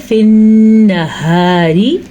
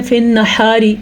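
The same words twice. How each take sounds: First: فی النہاری slow with a clear ہا and ghunna on the نّ; correct reading. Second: فی النہاری with a weak ہا; wrong reading. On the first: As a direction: say فی النہاری slowly, sounding the ہا fully. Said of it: "یہ ہے فی النہاری". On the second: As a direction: demo of the mistake in فی النہاری. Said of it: "وہ غلط ہے". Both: Shown as a demonstration.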